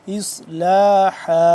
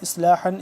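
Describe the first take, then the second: First: The word ends on a long a, no n. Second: The word ends with a final n sound. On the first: The reading stops on this word. "इसको वक्फ़न क्या पढ़ेंगे" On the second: The reading continues without stopping. "दो ज़बर हन इस्लाहन"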